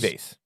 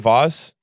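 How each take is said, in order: First: The word is said in the plain American way. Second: The word is said in a French-style, sophisticated way. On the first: It is the ordinary everyday way. "I say vase. Vase. Americans" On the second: It sounds sophisticated. "French people say vase, sophisticated"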